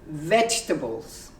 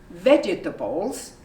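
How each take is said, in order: First: A middle vowel is dropped, shortening the word. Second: Every syllable is pronounced in full. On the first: The speaker calls it right. "you say vegetables" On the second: The speaker calls it wrong. "You don't say vegetables"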